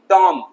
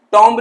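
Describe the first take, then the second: First: टॉम ending on M, silent B; correct pronunciation. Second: टॉम्ब with the B sounded; wrong pronunciation. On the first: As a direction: close on the M in टॉम. (सही उच्चारण, टॉम में B मूक) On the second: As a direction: end टॉम्ब on an audible B. (गलत उच्चारण, टॉम्ब में "ब" बोलकर) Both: Shown as a demonstration. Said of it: "टॉम्ब नहीं".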